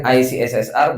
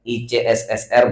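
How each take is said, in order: First: "I C S S R" spelt out as ai-si-es-es-ar; English letter names. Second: "I C S S R" spelt out as i-ce-es-es-er; Indonesian letter names. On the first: Speaker shows members one allowed reading, "I C S S R" as English ai-si-es-es-ar. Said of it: "Bacanya boleh". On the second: Speaker shows members another allowed reading, "I C S S R" as Indonesian i-ce-es-es-er. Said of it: "boleh ya, terserah ya". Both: Shown as a demonstration.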